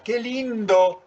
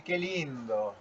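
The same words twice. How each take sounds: First: "qué lindo" sung out high, slow and loud, truly delighted; admiring "qué lindo". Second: Ironic "qué lindo". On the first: Teacher showing intonation to students, delighted and high. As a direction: say "qué lindo" as if you really mean it, rising high. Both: Shown as a demonstration. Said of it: "Con una entonación damos vuelta el sentido".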